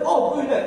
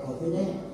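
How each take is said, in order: First: It is said loudly, almost shouted. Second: It is said softly and gently. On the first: The request is louder than it needs to be. The speaker calls it wrong. "Aduh ribut aja" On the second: The request is made calmly at the needed volume. The speaker calls it right.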